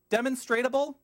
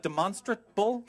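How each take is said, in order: First: "demonstratable" with an extra -ta- syllable, a puzzled high rise; stumbling mispronunciation. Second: "demonstrable" in four syllables, a tentative rising check; self-correcting pronunciation. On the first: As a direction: try out "demonstratable" as a full five-syllable word, unsure. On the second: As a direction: correct it to "demonstrable", asking if that's right. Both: Shown as a demonstration. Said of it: "I'm like, demonstrable?".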